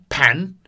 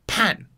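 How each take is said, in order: First: It is said in the second tone. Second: It is said in the fourth tone. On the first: "Inside the entrance or the kitchen is second tone" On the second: "bathroom or backyard is fourth tone"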